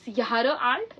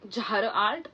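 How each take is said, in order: First: Jahre begins with a Y sound. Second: Jahre begins with a J sound. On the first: The speaker calls it right. "J is pronounced as year" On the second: The speaker calls it wrong. "it's not Jahre alt"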